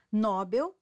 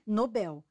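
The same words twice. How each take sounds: First: "Nobel" stressed on NO; wrong stress. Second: "Nobel" stressed on BEL, no-BEL; correct stress. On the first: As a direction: hit NO in "Nobel". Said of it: "forma incorreta". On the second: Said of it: "O correto é Nobel". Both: Shown as a demonstration.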